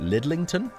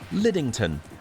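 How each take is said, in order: First: It has an extra l sound mid-word. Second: It has no extra l sound mid-word. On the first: The speaker calls it wrong. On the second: The speaker calls it right.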